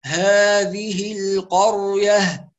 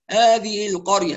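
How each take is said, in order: First: Clearly sounded ه in "هذه القرية", unhurried; careful articulation. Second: "هذه القرية" with the ه swallowed, nearly "آذِه"; quicker, leave the ه of "هذه" unpronounced; dropped ه. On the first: Teacher models it for students, careful slow articulation. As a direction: say "هذه القرية" slowly, every ه audible. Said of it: "فنقول". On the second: Teacher imitates careless reciters, dropped ه. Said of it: "فكأن الهاء لا تنطق". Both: Shown as a demonstration.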